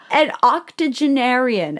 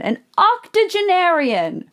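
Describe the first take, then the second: First: Said in the usual way. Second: Octogenarian stretched slow and high; mocking drawn-out octogenarian. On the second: Shown as a demonstration. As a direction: say octogenarian slowly, savoring each syllable. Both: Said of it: "the word that we just used".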